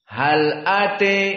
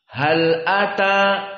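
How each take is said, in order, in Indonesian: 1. Vokal terakhir condong ke bunyi 'e'. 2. Vokal terakhir adalah bunyi 'a' yang terbuka. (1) "maka dibaca di sini ate" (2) "seperti ucapan di qiraah jumhur"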